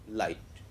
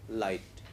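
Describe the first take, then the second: The two takes are said the same way.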